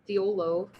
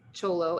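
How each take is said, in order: First: The word begins with a 'th' sound. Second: The word begins with a 'ch' sound. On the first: It is read the way it is spelled. The speaker calls it wrong. "Thiolo is what it looks like" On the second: It is said the way locals say it. The speaker calls it right.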